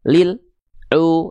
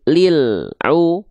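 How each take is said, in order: First: The L sound is cut off abruptly before continuing. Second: The L sound flows briefly into the next sound. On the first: The speaker calls it wrong. "Jadi bukan lil au, ah enggak gitu" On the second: The speaker calls it right. "tetap alnya ngalir sedikit"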